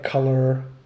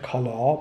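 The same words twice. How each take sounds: First: The final R sound is clearly pronounced. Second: The final R sound is dropped. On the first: "we call it rhotic, yeah, the the R, like color" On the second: "not color"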